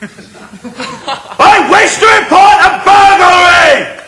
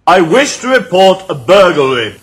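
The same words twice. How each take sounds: First: It is said very loudly. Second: It is said very quietly.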